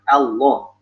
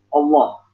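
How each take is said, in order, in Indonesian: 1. Vokal pertama adalah 'a' yang tipis dan jelas. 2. Vokal pertama tebal, bunyinya seperti 'o'. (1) "Yang yang benar gimana? Allah. A ya" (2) "orang bacanya banyak o"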